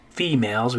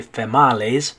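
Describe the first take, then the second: First: Said in the usual way. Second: Females as feh-MAH-les; deliberate mispronunciation. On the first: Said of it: "when we say that is females". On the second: Shown as a demonstration. Teacher shows what we don't say, females said feh-MAH-les. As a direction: say females to rhyme with tamales. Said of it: "we don't say females".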